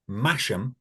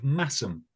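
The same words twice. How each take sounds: First: Masham with a sh sound in the middle; Masham, read just as it is spelt; spelling pronunciation. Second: Massam with a plain s sound, no sh; Massam, a hissed s replacing the sh; local pronunciation. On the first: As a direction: say Masham as written, with "sh". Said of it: "which is spelt". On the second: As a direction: say Massam with "ss" in the middle. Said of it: "but is pronounced Massam". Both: Shown as a demonstration.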